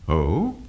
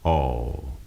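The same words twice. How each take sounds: First: The pitch glides upward on the word. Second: The pitch glides downward on the word. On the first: The speaker is interested or surprised. "the voice will rise up" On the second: The speaker is disappointed. "the voice will glide down"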